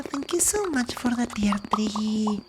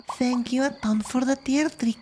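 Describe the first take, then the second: First: ASMR whisper. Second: Said in the usual way. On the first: Real, not acted. Whispering thanks to a viewer on an ASMR stream. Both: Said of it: "Today we do some A S M R".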